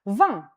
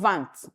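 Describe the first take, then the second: First: The final T is not pronounced. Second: The final T is pronounced. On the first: The speaker calls it right. "The T in vingt is silent" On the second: The speaker calls it wrong. "not vingt. Mm-mm"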